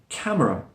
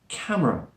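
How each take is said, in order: First: The middle vowel is very slightly heard. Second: The middle vowel is very slightly heard.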